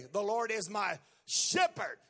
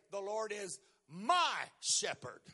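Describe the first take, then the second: First: "Lord" pushed up with a rising lift; stress on Lord. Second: Slow take leaning hard on "my"; "my" lifted and drawn out, the rest light; stress on my. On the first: Preacher demonstrating the word "Lord" stressed. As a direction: lean into "Lord", let the line rise. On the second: Preacher showing a stress on "my" in the psalm. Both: Shown as a demonstration. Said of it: "You can emphasize any of those words".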